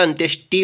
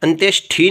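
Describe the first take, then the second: First: अंत्येष्टि ending in hard retroflex "ti", no puff; unaspirated t. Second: अंत्येष्टि ending in a puffed retroflex "thi"; aspirated th. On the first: Teacher giving the correct form, अंत्येष्टि with tamatar t. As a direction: say अंत्येष्टि as "antyesh-ti". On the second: Teacher showing the faulty form, अंत्येष्टि with aspirated ending. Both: Shown as a demonstration. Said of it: "टैसे टमाटर वाला आता है".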